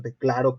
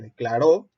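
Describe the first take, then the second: First: Declaro with the stress on CLA; stress on second-to-last syllable. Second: Declaró rising onto a stressed final RÓ; stress on last syllable. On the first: Teacher contrasting meanings by accent, penultimate stress on declaro. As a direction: land on the middle syllable, de-CLA-ro. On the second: Teacher contrasting meanings by accent, final stress on declaró. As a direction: punch the ending, de-cla-RÓ. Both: Shown as a demonstration. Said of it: "no es lo mismo decir".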